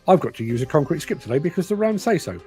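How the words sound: It is read expressively, with complaining intonation.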